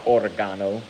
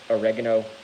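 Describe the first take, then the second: First: It is said in a British way. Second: It is said in an American way.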